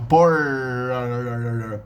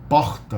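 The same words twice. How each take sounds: First: The r sounds like an American English r. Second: The r is a throaty h-like sound. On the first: This is the rural caipira pronunciation. "a pronunciation very similar to uh, the American English R" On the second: This is the Rio de Janeiro pronunciation. "Somebody in Rio will say porta"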